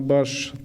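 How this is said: The word ends with an sh sound. This is the Yurt dialect form. "Замена общеногайского «с» на «ш»"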